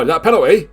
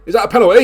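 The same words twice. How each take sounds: First: Rising disbelief, a little louder; excited question. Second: Much higher and louder, near shouting; can't believe it, yell the question; excited shout. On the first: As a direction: catch the foul and ask it quick. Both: Real, not acted. Sudden foul in the box.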